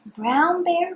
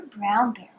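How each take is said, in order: First: Higher, bright calling tone; sing-song call. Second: Dropped, settling repeat. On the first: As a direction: call out the name. Reading to child, rising call. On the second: Repeated lower. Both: Shown as a demonstration.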